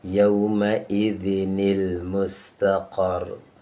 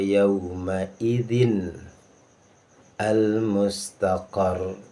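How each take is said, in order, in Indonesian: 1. Bunyi 'ni' sambungan menghubungkan idzin ke mustaqar. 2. Tidak ada bunyi 'ni' sambungan yang ditambahkan setelah idzin.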